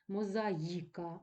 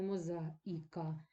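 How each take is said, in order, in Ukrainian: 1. Перед 'i' є глайд 'y'. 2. Перед 'i' немає глайда 'y'. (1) "вимовляється як два звуки І, І" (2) "а не"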